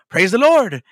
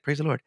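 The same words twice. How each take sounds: First: It is said with a drawling country twang. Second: It is said plainly, without a twang.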